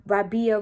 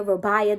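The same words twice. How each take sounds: First: Rabia said RAH-bee-uh; mispronounced name. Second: Rabia said ruh-BYE-uh; mocking mispronunciation. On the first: Retold or imitated. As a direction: Rabia with a short flat first a. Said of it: "is this for Rab". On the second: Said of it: "Don't be saying my name trying to be funny".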